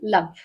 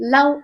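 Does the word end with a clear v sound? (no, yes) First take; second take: yes; no. First: The word ends with a clear v sound. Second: The word ends without a clear v sound. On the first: The speaker calls it right. "v முடிகிற மாதிரி love" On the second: The speaker calls it wrong. "love அப்படின்னு சொல்லாம"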